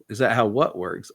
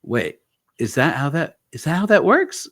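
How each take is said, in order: First: "what" picked out as the puzzle; retold questioning echo. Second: High, louder disbelief; acting out a startled double-check; retold astonished question. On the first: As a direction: stress on "what", near usual pitch. Therapist's retold puzzled counter-question. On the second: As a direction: pitch leaps up in puzzled surprise.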